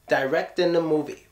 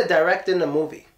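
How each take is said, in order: The two takes are said the same way.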